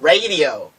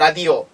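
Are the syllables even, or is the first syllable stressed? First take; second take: first stressed; even. First: The first syllable is high, then low, then mid. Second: All three syllables are said evenly and flat.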